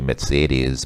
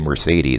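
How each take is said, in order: First: It is said with a German pronunciation. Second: It is said with an English pronunciation. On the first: "the German pronunciation is actually" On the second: "In English, we usually say"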